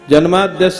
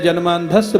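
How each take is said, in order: First: The middle sounds like plain 'dya'. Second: The middle sounds like nasal 'ndha'. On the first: The speaker calls it right. "जन्माद्यस की जगह" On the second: The speaker calls it wrong. "जन्मांधस्य बोलते"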